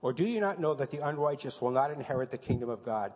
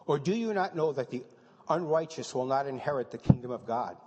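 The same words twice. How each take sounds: First: Firm, declared, not asked; loud, flat-out declaration of scripture; statement of fact. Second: Reading as question. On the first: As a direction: read it as fact, no question. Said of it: "that's a statement of fact". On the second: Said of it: "that's not only a question, that's a statement of fact". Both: Shown as a demonstration.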